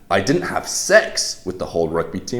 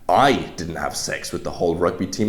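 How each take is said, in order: First: The stress falls on the word sex. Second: The stress falls on the word I. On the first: Something else was done instead. "implies you didn't have sex, but maybe you did something else" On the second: Someone else did it. "implies that you didn't, but somebody else did"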